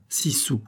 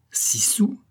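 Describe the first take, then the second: First: Said in the usual way. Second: High-pitched incredulous echo, rising at the end; exclamation outrée. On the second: A narrator's reading. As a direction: exclaim it as the scandalised aunt. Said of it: "s'écria la tante". (écho outré, aigu et montant)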